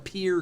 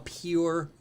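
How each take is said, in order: First: The vowel sounds like the word peer. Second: The vowel sounds like the word pure. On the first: The speaker calls it right. "you changed your pronunciation of peer to be correct" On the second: The speaker calls it wrong. "I just did that to be funny"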